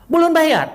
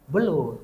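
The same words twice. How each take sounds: First: High, loud incredulous outburst; astonished question. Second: Said in the usual way. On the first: Retold or imitated. Hearing the buyer has not paid, loud astonished question. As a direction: pounce on the news in disbelief.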